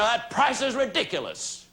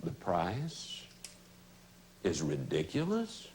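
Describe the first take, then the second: First: Higher-pitched mock complaint; objecting prospect. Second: Low, soft questioning echo with pauses; lowered voice. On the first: Prospect objecting to a salesperson, raised-pitch protest. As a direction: play a prospect balking at the price. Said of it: "When the prospect says to you". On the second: Shown as a demonstration. Salesperson answering a prospect's objection, lowered questioning voice. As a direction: drop your voice right down and ask it back gently. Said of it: "Just lower your voice".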